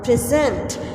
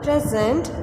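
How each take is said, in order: First: The stress is on the second syllable. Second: The stress is on the first syllable. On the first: It is used as a verb. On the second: It is used as a noun or adjective.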